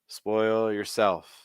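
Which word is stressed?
yourself. The stress falls on the word yourself. The speaker calls it wrong. "yourself is the stressed word when you're saying it here"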